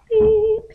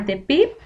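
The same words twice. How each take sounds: First: High-pitched beep sound; imitated beep. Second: Said in the usual way. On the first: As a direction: squeak it out like a tone.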